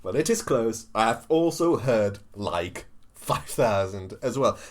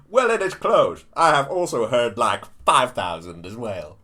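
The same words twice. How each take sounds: First: More measured politician impersonation, low and drawn-out ending; lower-pitched, emphatic mock-presidential delivery; Trump. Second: Loud, punchy politician impersonation; emphatic mock-presidential delivery; Trump. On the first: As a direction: repeat the impression with less force.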